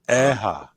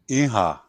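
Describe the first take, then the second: First: The vowels are a softened e then a. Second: The vowels are i then a. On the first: This is the Saddle Lake way of saying yes. "In Saddle Lake, they say eha" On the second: This is the Goodfish way of saying yes. "We say in Goodfish, we like the word yes, we say iha"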